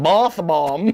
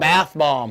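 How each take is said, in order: First: It is said in an English accent. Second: It is said in an American accent.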